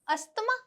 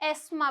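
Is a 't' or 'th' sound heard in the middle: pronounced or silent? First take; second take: pronounced; silent. First: The middle 'th' sound is pronounced. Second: The middle 'th' sound is silent. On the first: The speaker calls it wrong. "बिल्कुल नहीं। ये word बहुत सारे लोग गलत pronounce करते हैं" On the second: The speaker calls it right. "इसमें जो टी एच है वो क्या है, साइलेंट है"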